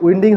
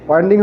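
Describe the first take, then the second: First: উইন্ডিং said as "win-ding", short i like wind air; উইন্ডিং with the vowel of wind, asked as a question; "উইন্ডিং" rhyming with "tin" and pitched up as a question; wrong pronunciation. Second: ওয়াইন্ডিং said as "wine-ding" with a long ai; ওয়াইন্ডিং with the vowel of wine, stated firmly; "ওয়াইন্ডিং" opened on ai like "kind"; right pronunciation. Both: Shown as a demonstration. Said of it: "এটার উচ্চারণটা কী হবে?".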